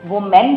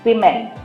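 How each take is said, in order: First: The first syllable sounds like 'wu'. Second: The first syllable sounds like 'wi'. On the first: The speaker calls it wrong. "वुमेन नहीं करते" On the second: The speaker calls it right. "लेकिन इसको pronounce करते हैं विमेन"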